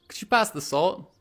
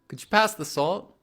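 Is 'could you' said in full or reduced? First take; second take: reduced; reduced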